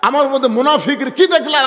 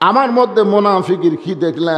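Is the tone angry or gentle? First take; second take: angry; gentle. First: It is said in a hot, angry tone. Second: It is said in a soft, gentle tone. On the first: The speaker is offended and confrontational. "গরম হয়ে বলছে" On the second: The speaker is calm and conciliatory. "মেজাজ নরম করে বললেন"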